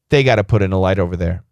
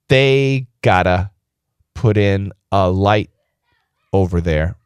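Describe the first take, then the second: First: The sentence is spoken at normal conversational speed. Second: The sentence is spoken slowly and carefully. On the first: "the normal speed is" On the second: "I'll say it a little bit more slowly"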